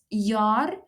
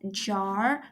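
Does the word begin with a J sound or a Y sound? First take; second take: Y sound; J sound. First: The word begins with a Y sound. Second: The word begins with a J sound. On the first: The speaker calls it right. "It's jaar, because in Afrikaans the J is pronounced as a Y" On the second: The speaker calls it wrong. "not jar"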